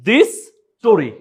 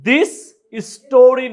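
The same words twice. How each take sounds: First: The two s sounds merge into one. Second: Both s sounds are pronounced separately. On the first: The speaker calls it right. "দুইটা এস আমরা উচ্চারণ করব না" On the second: The speaker calls it wrong. "দিস স্টোরি না বলে"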